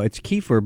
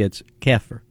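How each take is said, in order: First: It is said in a general American accent. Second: It is said in a Texas accent.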